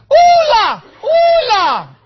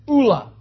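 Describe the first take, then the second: First: High, loud comic holler, first vowel held long; yelled mock cuss. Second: Said in the usual way. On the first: Shown as a demonstration. Preacher showing how to cuss when hurt, comic high yell. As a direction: yell it out like a stand-in swear word. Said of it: "you just yell". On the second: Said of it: "start a new cuss word".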